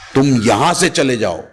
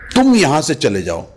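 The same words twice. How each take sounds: First: The stress falls on the word यहां. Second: The stress falls on the word तुम. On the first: Go anywhere else, just not this place. "अगर मैं यहां पे stress कर देता हूं" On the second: This particular person should leave, not the others. "अगर मैं तुम पे स्ट्रेस करता हूं"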